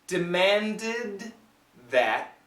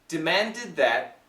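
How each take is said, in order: First: The phrase is said slowly. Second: The phrase is said quickly. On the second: "if we say it fast"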